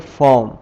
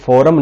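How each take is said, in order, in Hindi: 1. 'r' एक syllable में silent है। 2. 'r' एक अतिरिक्त दूसरा सिलेबल बनाता है। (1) "इसे हम पढ़ेंगे फॉर्म" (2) "फॉरम नहीं पढ़ेंगे"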